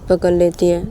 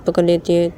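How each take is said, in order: Both takes have the same delivery.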